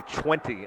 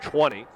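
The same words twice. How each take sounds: First: The word is pronounced carefully and fully. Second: The word is pronounced casually and loosely. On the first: The speaker calls it right. "dignified pronunciation of the word twenty" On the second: The speaker calls it wrong. "I say twenty like a like a burger"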